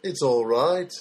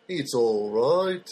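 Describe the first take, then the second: First: Said in the usual way. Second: Slow, lightly Liverpool-flavoured "It's all right."; a touch of Liverpudlian, stretched out slowly; Liverpudlian accent. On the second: Shown as a demonstration. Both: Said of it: "I just love the Liverpudlian accent".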